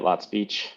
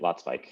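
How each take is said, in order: First: The second part rhymes with 'each'. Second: The second part rhymes with 'like'. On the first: The pronunciation the family grew up with. "I grew up uh, pronouncing it Lot Speech" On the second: A return to the German-rooted pronunciation. "go back to German roots and start producing, uh, pronouncing it Lot Spike"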